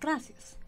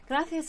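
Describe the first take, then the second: First: The c is said as an s sound. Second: The c is said as a th sound. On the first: This is how it is said in Latin America. "in Latin America it's gracias" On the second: This is how it is said in Spain. "is the Spanish way of saying it because the C's over there are sort of a th sound"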